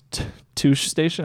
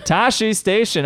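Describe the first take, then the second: First: Touche Station said like "touché", too-shay; misreading. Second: Tashi Station said tah-shee, the right way; correct reading. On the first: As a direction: read Touche Station the wrong way, as the French word touché. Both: Shown as a demonstration. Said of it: "I almost read that".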